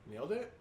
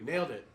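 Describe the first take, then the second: First: It rises at the end like a question. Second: It falls at the end like a statement.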